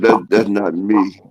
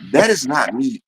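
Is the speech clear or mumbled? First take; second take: mumbled; clear. First: The words are mumbled with a mushy mouth. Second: The words are spoken clearly and distinctly.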